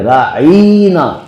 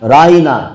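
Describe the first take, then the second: First: The middle 'ain' sound is drawn out long. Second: The middle 'ain' sound is said short. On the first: It becomes an insult, like calling someone a fool. The speaker calls it wrong. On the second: Please have regard for us. The speaker calls it right.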